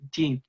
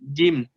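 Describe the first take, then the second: First: The consonant is soft with escaping breath. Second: The consonant is firm and strongly voiced. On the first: The speaker calls it wrong. "bukan nirojim, jim" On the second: The speaker calls it right. "harusnya nirojim, jim"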